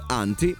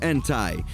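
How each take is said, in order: First: It is said with a British pronunciation. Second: It is said with an American pronunciation. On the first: "in inglese British si dice Anti" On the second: "in inglese americano si dice Anti"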